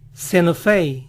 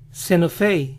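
No difference in how they are said.

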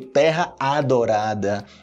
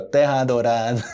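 First: The two words are said clearly apart. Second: The two words are run together. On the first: "Tem que ser bem específico, né? Tipo" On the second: "Mas você junta"

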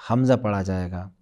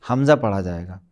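The two takes are said the same way.

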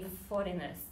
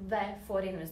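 First: A bare consonant runs straight into the word. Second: An extra vowel comes before the word. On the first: The speaker calls it wrong. "because it's hard to say" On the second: The speaker calls it right. "you put this helpful vowel and you say"

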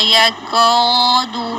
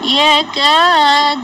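First: The long vowel sounds heavy and full. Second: The long vowel sounds thin and light. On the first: The speaker calls it wrong. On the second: The speaker calls it right.

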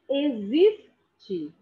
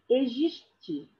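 First: The x sounds like z. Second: The x does not sound like z. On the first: The speaker calls it right. "o X é som de Z" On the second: The speaker calls it wrong. "Não é existe"

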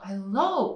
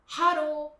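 First: The stress is on the second syllable. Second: The stress is on the first syllable. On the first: "英語だとhello 後ろ側にあるんだけど" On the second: "日本語だとhello"

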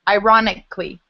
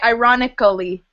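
First: The ending is reduced to just 'lee'. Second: The ending is said as a full 'ally'. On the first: The speaker calls it right. "you would say ironically. So it looks like Ali, but it's just Lee" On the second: The speaker calls it wrong. "you wouldn't say ironically"

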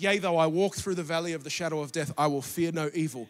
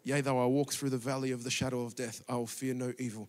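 First: It is said in a normal speaking voice. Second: It is muttered quietly under the breath.

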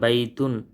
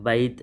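First: The word ends with a full -un syllable. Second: The word ends abruptly on the final t. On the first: This is the complete form used when learning. "పూర్తిగా ఉచ్చరించాలి" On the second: This is the everyday spoken form. "వాడుక భాషలో"

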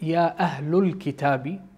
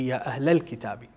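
First: The vowel after 'Ahl' is a 'u' sound. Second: The vowel after 'Ahl' is an 'a' sound. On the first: The speaker calls it wrong. "I've used the wrong pronunciation of the minor syllable vowel sound" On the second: The speaker calls it right. "it's supposed to be"

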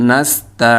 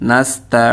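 The two takes are said the same way.

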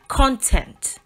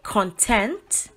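First: The stress is on the first syllable. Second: The stress is on the second syllable. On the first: It means what is contained inside something. "which is all that is contained inside something" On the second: It means happy or satisfied. "which is happy or satisfied"

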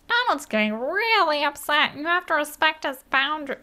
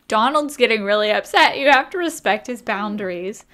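First: It is said in a put-on Stitch voice. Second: It is said in the speaker's normal voice.

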